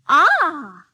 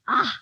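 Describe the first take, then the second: First: It sounds pleased. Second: It sounds disgusted.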